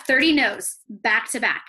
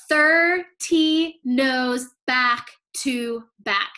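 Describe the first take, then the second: First: Said in the usual way. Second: Very slow, each word weighed; slow emphatic. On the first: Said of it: "I wanna make sure I say this right". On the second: Shown as a demonstration. Coach stressing the sister's thirty rejections, slowly. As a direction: drag out every word for effect. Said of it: "emphatic number".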